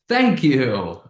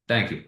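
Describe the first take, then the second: First: It is said with an excited, lively tone. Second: It is said with a flat, neutral tone. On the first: "That's exciting" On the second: "which is kind of neutral"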